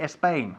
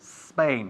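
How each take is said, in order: First: An extra vowel sound comes before the S. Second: The word starts directly with the S sound. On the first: The speaker calls it wrong. "We don't say Espagne" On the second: The speaker calls it right. "We say Spain"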